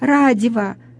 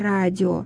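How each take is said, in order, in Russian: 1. Между конечными гласными вставляется звук v. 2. Конечные гласные сходятся без звука между ними. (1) "радиво вместо радио" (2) "вместо радио"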